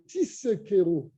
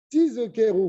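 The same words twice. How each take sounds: First: The middle consonant is a voiceless s sound. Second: The middle consonant is a voiced z sound. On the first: You will rent. "vous allez louer" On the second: You will remember. "vous allez vous rappeler"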